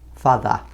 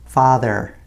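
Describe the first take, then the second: First: The final R is dropped. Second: The final R is pronounced clearly. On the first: "without the R pronunciation" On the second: "we pronounce the E R at the end very clearly"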